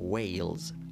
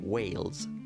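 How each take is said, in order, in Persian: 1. مصوت صدای بلند 'ay' است. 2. مصوت صدای بلند 'ay' است.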